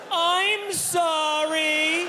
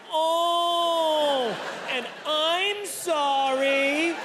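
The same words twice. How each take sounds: First: Very high, drawn-out slow apology; yelled apology. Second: Very high, very slow oh and apology; high embarrassed apology. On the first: Apologizing to the doctor, mock yelled high and slow. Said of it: "So I yelled". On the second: What the doctor had to deal with, high drawn-out apology. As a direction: replay the squeak and drawn-out sorry. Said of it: "he's had to deal with". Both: Retold or imitated.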